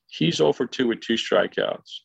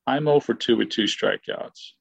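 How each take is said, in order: First: "he's" picked out for contrast; stress on HE'S. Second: "I'm" picked out for contrast; stress on I'M. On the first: Player comparing his teammate's record with his own, stress on "he's". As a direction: lean on "he's", setting him against yourself. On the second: Player comparing his own record with his teammate's, stress on "I'm". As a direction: lean on "I'm", setting yourself against him. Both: Real, not acted.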